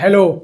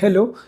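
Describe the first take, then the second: First: The word is said very loudly. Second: The word is said very quietly. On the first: This is the amplified signal coming out of the speakers. "बहुत तेज बोलता है hello ऐसे करके" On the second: This is the small signal going into the amplifier. "एकदम धीमे से बोला"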